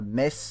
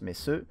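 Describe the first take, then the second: First: It is said as one syllable, French style. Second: It is said as two syllables, German style. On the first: The speaker calls it wrong. "vous pouvez prononcer ça Metz en français, mais vous aurez tort" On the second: The speaker calls it right. "Ça se prononce Messeux"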